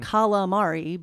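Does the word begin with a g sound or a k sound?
k sound. It begins with k and keeps the final vowel. This is the standard Italian form. "the real Italian pronunciation"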